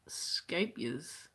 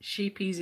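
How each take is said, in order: First: "scapias" slowly, with a hard sk at the start; attempted proper pronunciation. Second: "Sheepies" with a plain English sh and long ee; easy Aussie pronunciation. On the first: Crocheter trying the yarn brand's proper name, careful slow "scapias". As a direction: try out "scapias" slowly, sk in place of sh. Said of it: "tried to say it". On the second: Crocheter telling viewers how she says it, easy Aussie "Sheepies". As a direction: say "Sheepies" simply, like sheep plus -ies. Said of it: "easiest way for an Australian mouth". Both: Shown as a demonstration.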